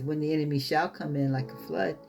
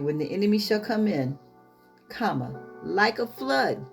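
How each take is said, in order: First: It runs on with no pause after "come in". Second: It has a clear pause after "come in". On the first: The enemy comes like a flood. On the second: The spirit comes like a flood against the enemy.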